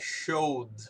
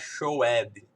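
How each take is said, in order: First: The ending is just a short d sound. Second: The ending is said as a separate syllable. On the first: The speaker calls it right. "como se fosse um apóstrofozinho D" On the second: The speaker calls it wrong. "A pronúncia disso aqui não é showed"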